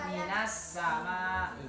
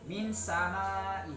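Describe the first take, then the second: First: A short 'a' vowel links min to samai. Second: No vowel links min to samai. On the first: The speaker calls it right. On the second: The speaker calls it wrong. "Tidak boleh dibaca"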